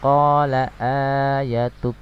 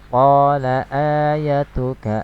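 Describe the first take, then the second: First: The word stops on a final consonant. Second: The word ends on a vowel and flows on. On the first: The reading stops at this word. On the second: The reading continues without stopping.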